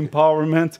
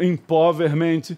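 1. Ela é pronunciada com os sons e a acentuação do inglês. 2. Ela é pronunciada letra por letra, à maneira portuguesa. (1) "em vez de" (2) "escrito empowerment"

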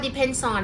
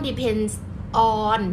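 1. สองคำนี้พูดติดกันโดยไม่หยุด 2. สองคำนี้พูดช้าๆ และแยกกัน (1) "ให้หนูเชื่อมเสียง" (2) "แบบไม่ต้อง, depends, on, มันช้าไปนะคะ"

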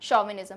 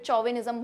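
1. यह शब्द 'sh' ध्वनि से शुरू होता है। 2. यह शब्द 'ch' ध्वनि से शुरू होता है। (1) "इसको प्रोनाउंस अपन शॉ" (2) "दस दिन बाद उठाओगे फिर चौविनिज्म भूलने लगोगे"

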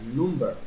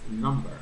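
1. Se pronuncia con una pronunciación parecida a cómo se escribe, al estilo español. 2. Se pronuncia con pronunciación inglesa. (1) "recuerden que no es number" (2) "Este es number"

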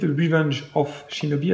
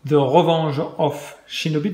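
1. Il est prononcé avec un accent à consonance plus anglaise. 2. Il est prononcé avec un accent à consonance française.

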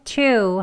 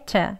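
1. 이 단어는 모음을 분명하고 강하게 발음합니다. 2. 이 단어는 짧고 약하게 발음합니다. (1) "강조할 때는 to 하고 이렇게 명확하게 발음을" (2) "자연스럽게 짧은 to 또는 약하게 to"

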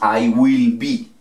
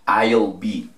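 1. 'Will' se dice completo, como una palabra separada. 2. 'Will' se contrae con 'I' y se pronuncia como una sola sílaba. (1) "No decimos I will be" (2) "¿Vieron qué sencillo?"

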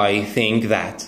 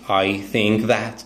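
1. أصوات th تُنطق كأصوات th حقيقية. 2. أصوات th تُنطق كأصوات th حقيقية.

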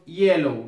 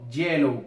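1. El primer sonido es un sonido suave, parecido a una vocal. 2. El primer sonido es una consonante fuerte del español. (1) "Decimos yellow" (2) "no yellow, como si lo utilizáramos en español con una consonante"

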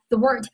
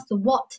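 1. 这是用美式发音说的。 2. 这是用英式发音说的。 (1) "是个美式发音" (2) "如果英式发音应该读成thwart"

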